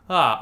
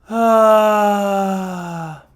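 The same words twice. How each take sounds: First: The voice is clear and firm. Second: The voice is breathy and airy.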